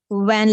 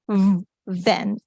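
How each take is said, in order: First: The word begins with a w sound. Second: The word begins with a v sound. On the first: The speaker calls it wrong. "We cannot say when like this" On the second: The speaker calls it right. "the vehicle van is van"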